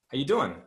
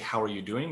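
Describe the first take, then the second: First: It is said quickly, dropping the word are. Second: Every word is said in full. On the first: "sometimes we say this very quickly" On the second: "We don't say"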